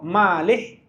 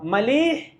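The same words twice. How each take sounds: First: The vowel of the first syllable is long. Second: The vowel of the second syllable is long. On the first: The food is too salty. "mim yang panjang" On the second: It is excellent. "lam yang panjang"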